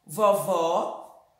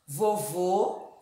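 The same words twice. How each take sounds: First: "vovó" low, with open ó; "vovó" deliberately pronounced with wide open o; open vowel. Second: "vovô" with rounded closed ô; "vovô" deliberately pronounced with tight o; closed vowel. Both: Shown as a demonstration.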